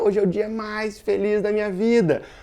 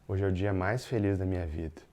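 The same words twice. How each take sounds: First: It is said with lively, happy excitement. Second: It is said flatly, without any joy. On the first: The words and the feeling match. The speaker calls it right. "É muito diferente de eu dizer, cara" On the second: The words and the feeling do not match. The speaker calls it wrong. "Essa foi uma mensagem incongruente na comunicação"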